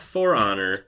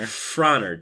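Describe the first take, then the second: First: The two words are said separately and distinctly. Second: The two words are run together as one word. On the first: The speaker calls it wrong. "not For Honor" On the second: The speaker calls it right. "One word, Frohnner"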